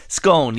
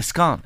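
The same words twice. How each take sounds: First: "Scone" with a long O, as in bone; scone rhyming with bone. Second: "scone" with a short open O, as in gone; scone rhyming with gone. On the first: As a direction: say "Scone" to rhyme with tone. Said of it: "I think we call it". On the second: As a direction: say "scone" to rhyme with on. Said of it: "Some people call it a scone". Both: Shown as a demonstration.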